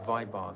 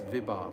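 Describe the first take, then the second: First: The first syllable has the 'vai' diphthong. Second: The first syllable has a plain short 'vi'. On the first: The speaker calls it wrong. "I mispronounce this word Vibhav every single time. I say Vaibhav" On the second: The speaker calls it right. "It's not Vaibhav, it's Vibhav"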